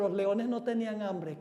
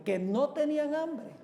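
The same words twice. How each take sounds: First: Said in the usual way. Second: Higher echo question, stress on NO TENÍAN; incredulous echo. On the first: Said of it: "Y alguno puede decir". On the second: Acted. Preacher answers a doubter about the lions, incredulous echo. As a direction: throw "no tenían hambre" back in disbelief. Throws the doubter's objection back.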